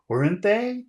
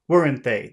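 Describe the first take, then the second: First: The tag question sounds uncertain and open. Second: The tag question sounds confident and sure. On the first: The asker wants to know the answer. "Sometimes people are asking you a question. Tell me what you know" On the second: The asker only wants agreement. "They don't want your opinion. They just want you to agree with them"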